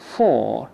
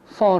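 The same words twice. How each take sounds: First: The word sounds full, like the number four. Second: The word is reduced with a weak vowel. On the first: The speaker calls it wrong. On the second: The speaker calls it right.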